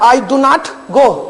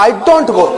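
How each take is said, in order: First: Do and not are said as two words. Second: Do and not merge into one syllable. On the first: "डू नॉट बोलेंगे" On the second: "डू नॉट को short में डोंट बोलते"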